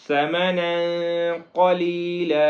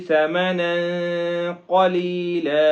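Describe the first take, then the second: The two takes are said the same way.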